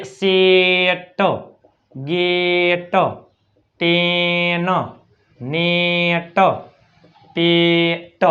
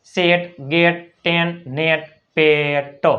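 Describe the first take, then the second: First: સેટ, ગેટ, ટેન, નેટ, પેટ very slowly, holding each "e"; stretched E vowel. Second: સેટ, ગેટ, ટેન, નેટ, પેટ as separate model words, vowel as in "set"; short E as એ. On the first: Teacher contrasting E with double E, stretched E vowel. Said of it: "જો આમાં શું હોય". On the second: Teacher showing E between two consonants, short E as એ. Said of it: "ઈનો ઉચ્ચાર શું થાય છે". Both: Shown as a demonstration.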